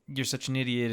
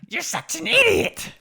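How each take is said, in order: First: It is said in his normal voice. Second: It is said in Babidi's put-on voice.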